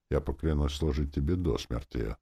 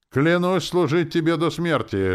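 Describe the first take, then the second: First: Said in the usual way. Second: High, loud cry; shouted oath. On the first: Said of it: "заявил он". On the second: A narrator's reading. Captain shouts his oath after departing lord, loudly. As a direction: shout the pledge at someone's back. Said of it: "выкрикнул Дюрекс".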